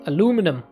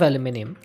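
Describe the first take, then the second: First: The word is said the American way. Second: The word is said the British way.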